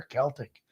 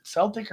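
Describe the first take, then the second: First: Celtic said with a K sound, "KELL-tick"; hard C in Celtic. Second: Celtic said with an S sound, "SELL-tick"; soft C in Celtic. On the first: Offering co-host the alternative, Celtic with hard K. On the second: Asking co-host which is right, Celtic with soft S. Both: Shown as a demonstration. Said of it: "Is it Celtic or Celtic?".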